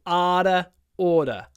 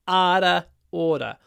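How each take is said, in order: No difference in how they are said.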